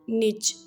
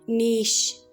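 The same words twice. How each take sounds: First: It is said in an American accent. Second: It is said in a British accent. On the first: "in American English they pronounce this word as niche" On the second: "British speakers pronounce uh, like niche"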